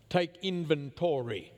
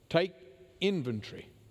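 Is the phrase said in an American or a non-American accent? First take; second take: American; non-American. First: The phrase is said in an American accent. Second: The phrase is said in a non-American accent.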